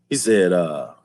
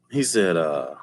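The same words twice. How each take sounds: The two takes are said the same way.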